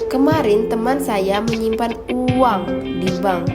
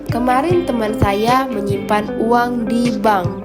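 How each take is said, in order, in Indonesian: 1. Tekanan jatuh pada uang. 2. Tekanan jatuh pada di bank. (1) "Uang, bukan barang atau emas" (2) "Di bank, bukan penggadaian"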